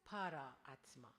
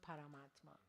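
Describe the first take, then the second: First: It is said slowly as two separate words. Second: It is said quickly, run together as one word.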